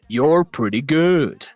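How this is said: It is said in an evil villain voice.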